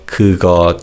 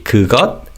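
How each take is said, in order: First: The word ends on an open vowel sound. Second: The word ends with a final consonant sound. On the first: "we say these words without the 받침" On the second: "And to say that, we say 그것"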